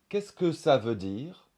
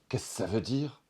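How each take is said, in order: First: The second 'que' is fully pronounced. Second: The second 'que' is dropped out.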